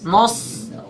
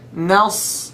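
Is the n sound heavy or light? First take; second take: heavy; light. First: The n sound is heavy and dark. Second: The n sound is light and clear. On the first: The speaker calls it wrong. "It's not nos" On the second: The speaker calls it right. "Make the noon light"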